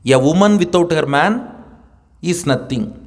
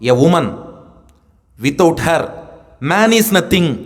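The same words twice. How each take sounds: First: It is said as one unbroken phrase. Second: It is said with pauses around "without her".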